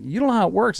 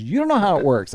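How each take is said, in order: First: High, rising objection; protesting retort. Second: Higher voice, falling at the end; firm comeback. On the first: Husband arguing with his wife, high protesting retort. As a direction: contradict her in a pitched-up, rising voice. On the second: Wife correcting her mansplaining husband, firm falling comeback. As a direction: turn it back with finality. Wife turns his words back on him. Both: Retold or imitated.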